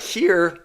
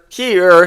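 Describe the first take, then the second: First: Said in the usual way. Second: Cracking voice, pitch jumps. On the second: Real, not acted. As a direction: voice cracking on the word. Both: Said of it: "whatever that voice crack was".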